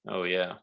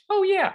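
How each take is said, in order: First: It is said in the speaker's normal voice. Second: It is said in a put-on character voice.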